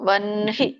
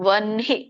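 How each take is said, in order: No difference in how they are said.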